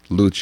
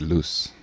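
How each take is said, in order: First: The word is pronounced the Italian way. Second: The word is pronounced the French way. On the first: "If it was Italian, I'd pronounce it luce" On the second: "If it was French, it'd be loose"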